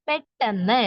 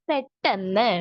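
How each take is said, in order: The two takes are said the same way.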